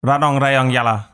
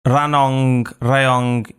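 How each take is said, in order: First: Ranong, Rayong, Yala in one quick run; faster repeat. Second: Ranong, Rayong spaced word by word; slow careful repeat. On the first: Learner trying the tongue-twister faster, run together. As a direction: rattle off Ranong, Rayong, Yala after the teacher. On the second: Learner copying the guest's tongue-twister, slow and separated. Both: Shown as a demonstration. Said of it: "you say more faster".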